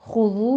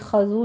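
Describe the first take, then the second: First: The first vowel is a rounded 'u'. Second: The first vowel is an open 'a'. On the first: The speaker calls it right. "खा के पर ज़म्मा है, होंठ गोल कर लीजिए" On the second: The speaker calls it wrong. "खज़ू नहीं है"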